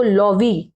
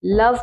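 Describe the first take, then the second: First: Slow लॉवी with final ee sounded; mispronunciation. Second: लव as one syllable ending on v; correct pronunciation. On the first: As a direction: misread love as two syllables, लॉवी. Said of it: "लॉवी नहीं पढ़ेंगे". (अंत में ई जोड़कर लॉवी) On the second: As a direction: say लव with silent final e. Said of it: "लवी नहीं पढ़ेंगे". (अंत का ई चुप रखकर लव) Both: Shown as a demonstration.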